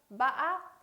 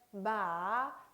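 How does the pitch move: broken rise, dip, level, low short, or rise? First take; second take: broken rise; dip. First: The pitch rises with a sharp break in the middle. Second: The pitch dips and trails off smoothly. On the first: "약간의 상승되는 음, 그러나 꺾임이 심한 거" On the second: "흘려주듯이 발음을 하면 되겠습니다"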